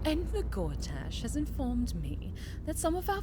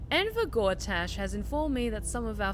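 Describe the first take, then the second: First: It is read in a put-on character voice. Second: It is read in the speaker's ordinary voice.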